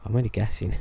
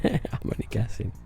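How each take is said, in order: First: Said in the usual way. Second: A modest laugh through the words. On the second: Retold or imitated. Laughing it off to the amazed customer. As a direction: chuckle it off as just a guess.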